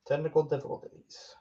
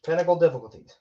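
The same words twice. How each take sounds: First: Weird voice. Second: Said in the usual way. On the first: Real, not acted. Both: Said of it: "Why did I say that so weird?".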